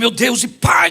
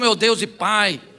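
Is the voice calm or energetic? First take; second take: energetic; calm. First: It is said in a forceful, high-energy voice. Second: It is said in a flat, hesitant, low-energy voice. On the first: The person praying is trying to regain fervor. "Vamos ver se eu mudar o tom de voz" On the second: The person praying has gone blank and lacks focus. "parece que dá um branco"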